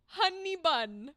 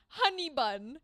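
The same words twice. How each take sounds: The two takes are said the same way.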